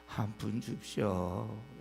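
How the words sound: It is said quietly in a pitiful, pleading voice. The speaker is begging humbly for sympathy. The speaker calls it right. "작은 목소리로 좀 불쌍한 듯이"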